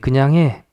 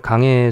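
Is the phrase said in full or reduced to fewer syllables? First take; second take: full; reduced. First: The phrase is said in full, clearly. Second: The phrase is said quickly, squeezed together.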